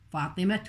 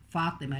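First: The word ends with a t sound, linked onward. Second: The word ends with an h sound before a pause. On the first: More words follow in the same phrase. "تلفظ التاء في درج الكلام" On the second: The word ends the phrase. "لأننا وقفنا عليها"

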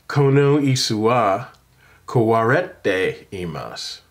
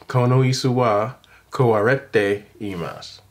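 Both takes have the same delivery.

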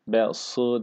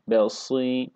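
First: The vowel after s is a back ı sound. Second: The vowel after s is between ı and i. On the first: The speaker calls it wrong. "Besı değil" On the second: The speaker calls it right. "I ile i arası bir ses ile telaffuz ediyoruz"

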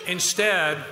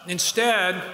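The two takes are said the same way.

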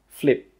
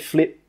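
First: The final P is held with no puff of air. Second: The final P is released with a puff of air. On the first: The speaker calls it right. "no, we say flip" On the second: The speaker calls it wrong. "We don't say flip"

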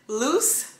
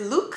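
First: The name ends with an s sound. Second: The name ends with a k sound. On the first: "I pronounce it loose" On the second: "a lot of people pronounce it Luke"

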